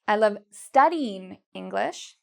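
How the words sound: The stress is on the word studying. "take the stress here and we move it to studying"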